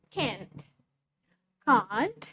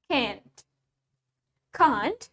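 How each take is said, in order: Both takes have the same delivery.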